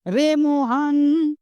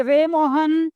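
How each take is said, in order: First: Slow drawn-out call across a distance. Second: Slowed call, a little stretched. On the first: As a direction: stretch it like calling someone far away. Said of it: "हम किसी को पुकारते हैं, तो जैसे". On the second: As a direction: call the name, drawn a bit. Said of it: "जैसे". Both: Shown as a demonstration.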